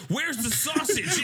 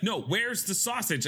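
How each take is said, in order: First: High, slow, drawn-out sing-song demand; higher insistent repeat; mock exasperated demand. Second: Said in the usual way. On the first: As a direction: stretch it out exasperated. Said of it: "And she was like". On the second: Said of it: "She was like".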